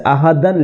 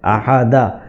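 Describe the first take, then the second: First: The word ends with an n sound. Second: The word ends with a long a vowel. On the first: The reader carries on without stopping. "अहदन लिखा हुआ है" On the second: The reader stops on this word. "वहाँ ठहरेंगे ना तो अहद नहीं बल्कि अहादा पढ़ेंगे"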